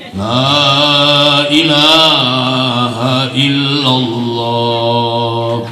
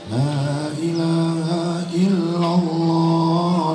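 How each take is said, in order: First: The voice is deep, bassy and forceful. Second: The voice stays light and even throughout. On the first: This is how the men chant the dhikr. "Kalau bapak-bapak lebih ngebas dia. ... macam harimau menerkam" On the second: This is how the women chant the dhikr. "Kalau ibu-ibu kan lebih stabil ya. ... dari awal sampai akhir stabil terus"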